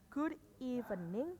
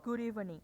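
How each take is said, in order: First: The two words are said separately. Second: The two words are joined together. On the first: The speaker calls it wrong. "bukan good evening" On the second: The speaker calls it right. "tapi good evening. Jadi digabung"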